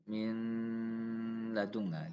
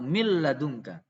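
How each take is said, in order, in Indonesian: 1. Huruf n melebur sebagian, menyisakan dengung sengau. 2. Huruf n melebur sepenuhnya ke dalam l. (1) "ini bisa idgham nakis dengan gunnah" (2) "Menurut Syatibiyah harus kamil, sempurna"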